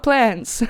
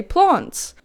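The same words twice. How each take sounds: First: "plants" with the short a of cat; English-style plants. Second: "plants" as plahnts, broad ah; Afrikaans-style plants. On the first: Vlogger rejecting the English variant, short-a pronunciation. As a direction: say "plants" with a front a. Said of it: "not plants". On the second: Vlogger showing her home-language habit, Afrikaans-style pronunciation. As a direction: say "plants" with the vowel of father. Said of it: "in Afrikaans, I would say". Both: Shown as a demonstration.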